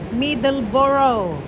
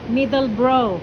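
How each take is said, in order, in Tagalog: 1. Binibigkas ang pangalan sa paraang Pilipino. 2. Binibigkas ang pangalan sa paraang British. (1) "Pero tayo mga Pilipino" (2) "Pag sila ang ano, mga British"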